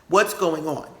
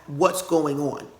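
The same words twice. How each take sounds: The two takes are said the same way.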